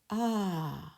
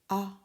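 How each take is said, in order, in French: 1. La voyelle est tenue longtemps. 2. La voyelle est courte. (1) "Si on va mettre au deuxième A, ajouter, prononce A" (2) "s'il n'y a pas de, et de deuxième A, c'est-à-dire A"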